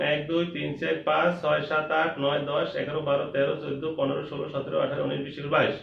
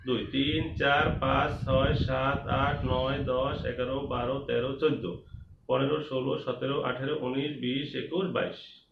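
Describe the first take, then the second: First: Quick count in even pairs; brisk, slightly raised counting rhythm. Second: Slower, measured counting chant; counting along together. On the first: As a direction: rattle the numbers off steadily. First quick count of mangoes. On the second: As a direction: count so the whole class can follow. Recount for everyone to follow. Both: Shown as a demonstration.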